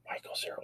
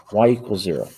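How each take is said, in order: First: Whispered "Y equals zero" under the breath. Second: Said in the usual way. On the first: Real, not acted. Teacher mutters the equation to self while drawing, whispering.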